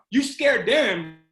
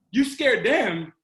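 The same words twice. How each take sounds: The two takes are said the same way.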